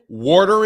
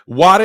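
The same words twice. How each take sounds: First: It is said in a Philadelphia accent. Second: It is said in a Boston accent. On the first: "Water in Philadelphia" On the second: "Water in Bartlett, Boston"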